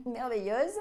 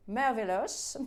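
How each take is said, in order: First: "merveilleuse" repeated with a laugh, rising at the end; "merveilleuse" said through a chuckle. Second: "merveilleuse" drawn out in a different, marvelling voice; "merveilleuse" said with put-on wonder, rising at the end; dreamy savouring. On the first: Real, not acted. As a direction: laugh at your own flourish as you say "merveilleuse" again. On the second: Savours the word, then repeats it.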